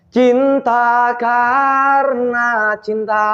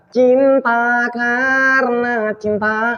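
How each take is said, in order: First: The voice sounds clear, not through the nose. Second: The voice sounds nasal, going through the nose. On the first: The speaker calls it right. "Vokal kan bulat kan?" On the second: The speaker calls it wrong. "itu akan perginya ke ke hidung"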